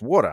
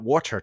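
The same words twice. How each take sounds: First: It is said in a New York accent. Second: It is said in a general American accent. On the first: "it's water. I'm a New Yorker" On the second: "water is not water to me"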